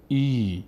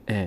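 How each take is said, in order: First: ای held as a long "ee"; long ee vowel. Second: ا as a short "e"; short e vowel. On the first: Teacher showing how it is now read, long "ee" on ای. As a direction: stretch ای into a long ee. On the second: Teacher showing what alef no longer becomes, short "e" on ا. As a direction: keep ا brief, an e sound. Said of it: "دیگه نمیشه ا". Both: Shown as a demonstration.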